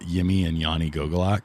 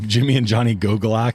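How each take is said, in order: First: The names begin with a Y sound. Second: The names begin with a J sound.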